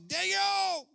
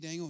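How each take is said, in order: First: The name is cried out with anguish. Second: The name is said in a casual, offhand way. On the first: The speaker calls it right. "he cried with a lamentable voice" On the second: The speaker calls it wrong. "He wasn't just, hey"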